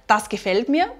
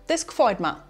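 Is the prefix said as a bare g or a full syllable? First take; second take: full syllable; bare g. First: The prefix is a full syllable with a vowel. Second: The prefix is reduced to a bare g sound.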